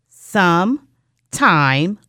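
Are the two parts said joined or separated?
separated. The two parts are said with a break. "we have some time"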